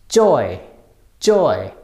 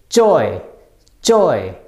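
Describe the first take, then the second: Both takes have the same delivery.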